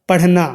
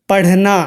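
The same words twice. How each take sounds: No difference in how they are said.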